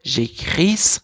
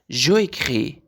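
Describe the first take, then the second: First: The vowel of je drops, giving one word. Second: Je and écris are said as two separate words. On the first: The speaker calls it right. "پس این رو به شکل یک کلمه میخوانیم" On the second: The speaker calls it wrong. "به این شکل بده جو"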